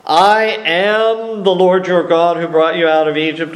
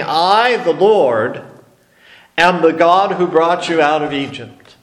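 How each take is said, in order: First: "I am the Lord your God" said in one flowing phrase; stress on I. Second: "I," set apart with a pause, then "the Lord," with a pause before "am the God"; pauses after I and Lord. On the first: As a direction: run "I am the Lord" together without a break. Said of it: "Is he saying". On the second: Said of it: "Or is he saying". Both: Shown as a demonstration.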